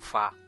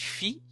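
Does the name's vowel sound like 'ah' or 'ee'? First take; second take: ah; ee. First: The name is said with an 'ah' vowel. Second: The name is said with an 'ee' vowel. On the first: This is the official way, like the musical note. The speaker calls it right. "A pronúncia oficial... Ele vem da nota musical mesmo, Fá" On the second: This is the common way people say the name. The speaker calls it wrong. "Muita gente chama de Fi"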